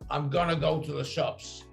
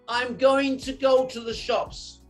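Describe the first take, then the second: First: Going to is reduced to gonna. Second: Going to is said as two full words. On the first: This is the American way of saying it. "Americans say, I'm gonna" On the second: This is the British way of saying it. "So in English, we say"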